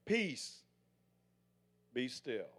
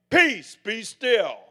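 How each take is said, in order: First: Softly spoken calm command; hushed and steady, settling the storm. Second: Loud, slow, ringing proclamation; proclaimed. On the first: Retold or imitated. Jesus calming the storm, quiet steady command. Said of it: "he put his hand up and he said". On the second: Shown as a demonstration. Preacher showing congregation how to proclaim peace, loud slow proclamation. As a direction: declare it with full authority. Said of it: "But when you proclaim".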